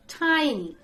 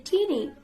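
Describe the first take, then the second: First: "Tiny" as TIE-nee; long I in "Tiny"; correct pronunciation. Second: Put-on "teeny" as TEE-nee; long EE in the first beat of "teeny"; old mispronunciation. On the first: Teacher corrects own old habit, "Tiny" said TIE-nee. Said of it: "The correct pronunciation is". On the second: Teacher admits old mistake, "teeny" said TEE-nee. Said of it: "I used to say teeny". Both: Shown as a demonstration.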